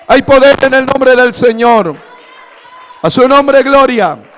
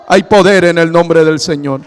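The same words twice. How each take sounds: First: Higher, louder shout on "poder"; shouted proclamation. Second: Firm, loud declaration of "poder"; forceful proclamation. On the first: Pastor crying out to the congregation in a loud, high shout. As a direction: cry it out to the whole church. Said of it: "repeated proclamation, shouted". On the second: Pastor proclaiming to the congregation, firm and loud. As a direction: declare it strongly from the pulpit. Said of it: "repeated proclamation, first take". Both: Acted.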